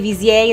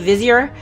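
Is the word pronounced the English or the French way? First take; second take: French; English. First: The word is said with a French pronunciation. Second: The word is said with an English pronunciation. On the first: "I am assuming a French accent" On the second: "instead of"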